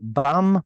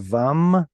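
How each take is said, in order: First: The word begins with a b sound. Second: The word begins with a v sound. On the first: The speaker calls it wrong. "it's not bam" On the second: The speaker calls it right. "but rather vam"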